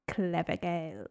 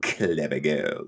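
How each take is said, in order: First: Put-on low, soft and slow "Clever Girls"; hushed, drawn-out "Clever Girls"; Muldoon-style delivery. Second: Put-on low and slow "Clever Girls" with a laugh; mock serious "Clever Girls"; laughing imitation. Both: Shown as a demonstration. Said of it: "I just want us to say it like".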